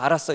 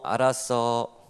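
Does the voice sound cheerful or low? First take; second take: cheerful; low. First: It is said cheerfully, with a smile. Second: It is said in a low, flat tone. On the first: Go ahead and have fun. "웃으면서 알았어" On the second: You had better come straight home. "이렇게 좀 낮은 톤이면"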